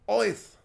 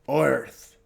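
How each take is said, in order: First: The word is said in a Brooklyn accent. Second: The word is said in a standard accent. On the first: The speaker calls it wrong. "You pronounce it with a Brooklyn accent" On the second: The speaker calls it right.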